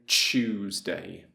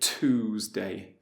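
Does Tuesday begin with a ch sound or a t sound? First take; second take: ch sound; t sound. First: The word begins with a ch sound. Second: The word begins with a plain t sound. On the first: "but we would say Tuesday" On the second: "We wouldn't say Tuesday"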